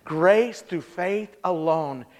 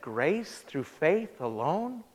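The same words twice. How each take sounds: First: Very slow, deliberate "grace through faith alone"; lower, slow and falling; patient repeat. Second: Very slow, much softer "Grace through faith alone?"; low, hushed, drawn-out echo; stunned question. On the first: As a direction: spell it out slowly for her. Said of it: "And he said". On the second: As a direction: let it sink in, half disbelieving. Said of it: "She said". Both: Retold or imitated.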